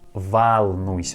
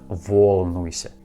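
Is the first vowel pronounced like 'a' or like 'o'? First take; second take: a; o. First: The first vowel sounds like an 'a'. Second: The first vowel sounds like an 'o'. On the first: The speaker calls it right. "letter O we pronounce like A" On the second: The speaker calls it wrong.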